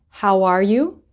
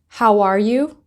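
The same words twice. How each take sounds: Both takes have the same delivery.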